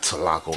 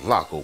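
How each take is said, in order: First: The word starts with a pronounced t sound. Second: The word starts directly with an l sound. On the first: The speaker calls it wrong. "it's not Tlaco" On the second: The speaker calls it right. "That's a silent T right there"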